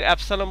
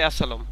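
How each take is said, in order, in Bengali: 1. শব্দটি স্পষ্ট 'b' ধ্বনি দিয়ে উচ্চারিত হয়। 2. শব্দটি 'b' ধ্বনি ছাড়া উচ্চারিত হয়। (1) "অ্যাবসালম বলবো কারণ কি এই বিটা আমাদের মনে রাখতে হবে" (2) "সঠিক উচ্চারণ কিন্তু অ্যাসালম"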